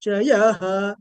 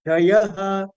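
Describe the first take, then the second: First: "Chayaha" with the ya raised in pitch; upward intonation on ya. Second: Anudatta dip on the Cha of "Chayaha"; downward intonation on Cha. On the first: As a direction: lift the tone on "ya" in "Chayaha". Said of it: "the upward intonation for ya". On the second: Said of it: "Cha is carrying Anudatta intonation". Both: Shown as a demonstration.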